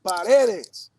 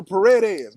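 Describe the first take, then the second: First: Paredes slowly, syllable by syllable, the Spanish way. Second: Paredes said the Spanish way, rolled r, stress on the middle syllable. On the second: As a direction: say Paredes like a Spanish name, pa-RE-des. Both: Shown as a demonstration. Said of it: "You can't say it with the English inflection".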